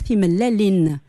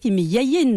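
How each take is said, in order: First: The middle consonant is an l sound. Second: The middle consonant is a y sound. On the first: This is the form used where the speaker married. "là où je suis mariée à Thesmeis, on va dire Thim Lelin" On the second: This is the form used in some other regions. "Thim Yayin dans certaines régions de Kabylie"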